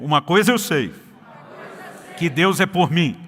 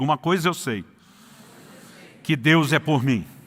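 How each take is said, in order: First: It is said with more force and energy. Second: It is said in a calm, normal voice.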